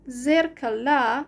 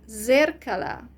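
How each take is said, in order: First: The stress is on the final syllable. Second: The stress is on the first syllable. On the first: "the ending a is the stress changes" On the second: "then the stress is on the first syllable"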